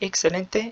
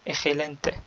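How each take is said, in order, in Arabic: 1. حرف x يُنطق كصوت ks. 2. حرف x يُنطق كصوت kh حلقي.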